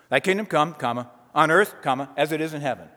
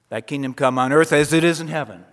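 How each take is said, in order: First: It is broken up with pauses between parts. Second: It is said as one unbroken phrase.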